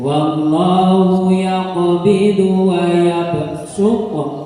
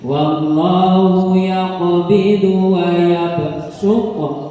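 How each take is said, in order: First: The s sound is heavy and emphatic. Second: The s sound is heavy and emphatic.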